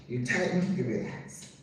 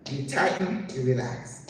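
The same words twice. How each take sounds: First: "You tighten" soft and rising, "you relax" fading low; soft repeat. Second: "tighten" rising, "relax" falling; "you tighten" lifted, "you relax" dropped; tighten then relax. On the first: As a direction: quieter echo, "relax" almost breathed. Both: Shown as a demonstration.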